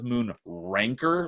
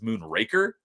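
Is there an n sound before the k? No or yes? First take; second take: yes; no. First: It has an n sound before the k. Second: It has no n sound before the k. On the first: The speaker calls it wrong. "I thought it was Moon Ranker, like R A N K E R" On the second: The speaker calls it right. "there's no N, it's Moon Raker"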